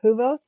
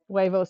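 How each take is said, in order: First: The word is said in a mangled form. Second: The word is said in its standard form.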